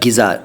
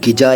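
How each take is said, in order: First: It starts with a plain g and has z. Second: It starts with a plain g and has j. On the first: "नहीं कह रहा" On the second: "नहीं कह रहा"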